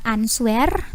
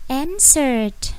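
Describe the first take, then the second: First: "answer" said as spelt, an-swer; wrong pronunciation. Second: "answered" as EN-sert, silent w; correct pronunciation. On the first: Teacher showing learners how not to say it, spelt-out mispronunciation. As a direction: say "answer" with the w sounded. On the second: Teacher correcting learners' reading, clear model pronunciation. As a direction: say "answered" in two beats, en-sert. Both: Shown as a demonstration. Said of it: "Bukan answer, tapi answered".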